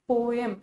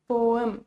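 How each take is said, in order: Both takes have the same delivery.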